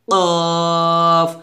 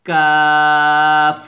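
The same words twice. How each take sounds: First: কফ with heavy back q and long rounded vowel; thick QAF. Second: কাফ with light k and long open aa; thin KAF. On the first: Teacher shows the heavy letter, thick drawn কফ. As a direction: make কফ thick and hold it. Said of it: "কফটা মোটা করবে". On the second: Teacher contrasts it with qaf, thin drawn কাফ. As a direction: keep কাফ thin, stretch it evenly. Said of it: "কাফটা পাতলা হবে". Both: Shown as a demonstration.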